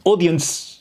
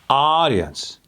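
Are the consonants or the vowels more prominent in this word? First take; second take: consonants; vowels. First: The final consonants are pushed hard. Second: The open vowels dominate the word. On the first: The speaker calls it wrong. "putting the emphasis on the D or the C at the end" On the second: The speaker calls it right. "opening up and letting those targets take over"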